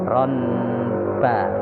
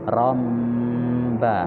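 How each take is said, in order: First: The nasal before b sounds like n. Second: The nasal before b sounds like m. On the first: The speaker calls it wrong. "bukan ronba" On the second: The speaker calls it right. "baca iklab romba"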